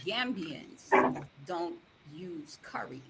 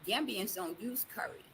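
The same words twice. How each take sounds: First: It is said slowly. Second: It is said at normal speed.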